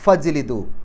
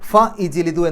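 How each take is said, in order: First: The 'i' vowel is dropped, running straight into 'jlidu'. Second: A separate 'i' vowel is sounded before 'jlidu'. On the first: The speaker calls it right. "ഫ കഴിഞ്ഞ് നേരെ ജീമ പറയാം" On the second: The speaker calls it wrong. "ഫ ഇജ്ലിദു എന്നല്ല പറയാം"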